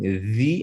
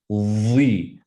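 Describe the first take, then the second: First: It is light, at the tongue tip. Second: It is heavy, with a fuller mouth. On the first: "light right at the tip of your tongue" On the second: "there's a fuller mouth version"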